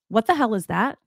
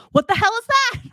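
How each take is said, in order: First: Said in the usual way. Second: High, loud mock yell of shock; startled husband shout. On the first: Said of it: "He just goes". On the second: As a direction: blurt it out like a husband who just spotted a strange cat. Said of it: "He goes".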